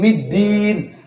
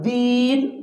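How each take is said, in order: First: The d sound is heavy and harsh. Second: The d sound is light and soft. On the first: The speaker calls it wrong. "Kalau middin dia terkesan kasar kedengarannya" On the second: The speaker calls it right. "nah itu agak tepat dia"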